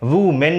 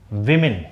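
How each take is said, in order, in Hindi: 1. पहला अक्षर 'woo' जैसा सुनाई देता है। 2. पहला अक्षर 'wi' जैसा सुनाई देता है। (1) "इसमें वू मेन नहीं होगा" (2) "इसका प्रोनाउंसिएशन होगा विमेन"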